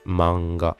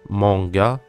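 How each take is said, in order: First: It is said with a Japanese pronunciation. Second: It is said with a French pronunciation. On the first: The speaker calls it right. "c'est bien ma, ensuite m et ga" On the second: The speaker calls it wrong. "quasiment la totalité des Français, prononcent ce mot manga"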